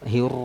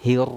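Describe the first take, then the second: No difference in how they are said.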